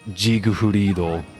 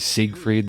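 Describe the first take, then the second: First: The name is said with Japanese syllables. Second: The name is said in a plain English way. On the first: "I like how they pronounce it in Japanese" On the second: "Sometimes they say"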